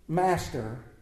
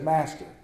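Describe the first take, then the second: First: It is read expressively, with lively inflection. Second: It is read flatly, without expression. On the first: "Let's put a little inflection into it" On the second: "not just as words on a paper"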